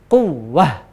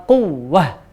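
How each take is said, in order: The two takes are said the same way.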